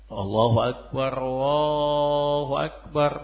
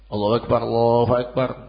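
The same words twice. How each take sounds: First: The phrases are said slowly with pauses between them. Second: The phrases are said quickly and run together. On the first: This is the call to prayer. "terus diam sejenak ya" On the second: This is the call to begin prayer. "cepat tanpa ada senggang waktu"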